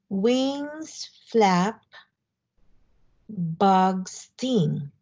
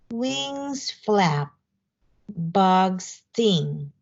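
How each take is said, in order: First: The lines are read at a slower pace. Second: The lines are read at a faster pace.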